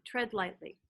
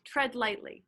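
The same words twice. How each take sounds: First: "tread lightly" repeated much softer, fading; soft echo. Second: Said in the usual way. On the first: Retold or imitated. Pastor echoing Spirit's words, much softer. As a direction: let "tread lightly" fall away like an echo. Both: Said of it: "I kept hearing the words".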